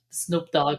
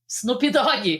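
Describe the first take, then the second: First: Each word ends without an extra vowel. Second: An extra vowel is added after each word. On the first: This is the name's proper pronunciation. The speaker calls it right. "I learned how to pronounce the name" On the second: This is how people in Brazil said the name. The speaker calls it wrong. "that's how everybody there"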